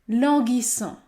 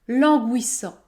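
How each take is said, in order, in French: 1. Le u après le g est muet. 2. Le u après le g se prononce. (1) "Ce mot se prononce languissant" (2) "Il ne faut pas dire languissant"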